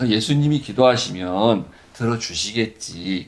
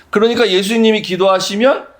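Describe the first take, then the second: First: Soft, slow musing to oneself; quiet inner assumption. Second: Said in the usual way. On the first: Shown as a demonstration. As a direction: think it to yourself, softly. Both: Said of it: "우리 이렇게 생각해야".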